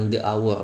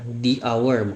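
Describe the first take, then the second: First: The article sounds like thuh. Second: The article sounds like thee. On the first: The speaker calls it wrong. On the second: The speaker calls it right. "Kecuali juga ada pada di"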